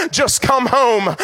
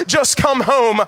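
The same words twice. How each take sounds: First: Slow plea. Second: Said in the usual way. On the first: Acted. First plea, drawn out.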